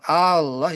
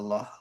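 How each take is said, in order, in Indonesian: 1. Vokal A pertama dibaca panjang. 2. Vokal A pertama tetap dibaca pendek. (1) "Kalau dia panjang Allah itu ada hamzah istifham" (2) "Kalau Allah saja ya lafaz jalalah"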